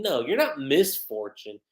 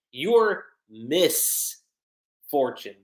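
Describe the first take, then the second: First: Said in the usual way. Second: "Miss" held and set apart, a pause, then a lower "Fortune"; split wordplay. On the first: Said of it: "you have the whole word misfortune". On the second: Acted. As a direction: break "Miss Fortune" into two separate words. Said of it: "that was a good play on words".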